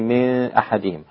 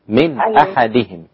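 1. صوت النون مخفي وفيه غنة. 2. صوت النون يُنطق بوضوح. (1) "أنت قلتي من أحدهم هذا خطأ" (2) "النون السكنة قبل الهمزة لابد أن تظهر"

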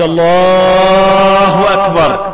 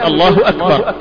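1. تُمدّ العبارة بالحروف الطويلة. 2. تُقال العبارة قصيرة ومقطوعة.

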